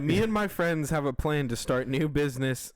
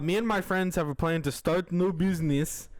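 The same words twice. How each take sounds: First: It is read in the speaker's ordinary accent. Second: It is read in a put-on, Russian-sounding accent.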